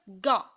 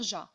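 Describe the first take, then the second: First: The syllable starts with a hard g sound. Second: The syllable starts with a soft zh sound. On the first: The speaker calls it right. "je vais dire ga" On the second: The speaker calls it wrong. "je vais pas dire ja"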